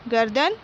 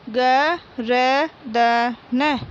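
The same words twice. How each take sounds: First: Said in the usual way. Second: गर्दन drawn out very slowly as ग-र-द-न; slow syllable reading. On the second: Shown as a demonstration. Teacher reading गर्दन aloud for pupils, very slowly. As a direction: spell out गर्दन aloud, one syllable at a time. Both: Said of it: "मौखिक बोलकर पढ़िए".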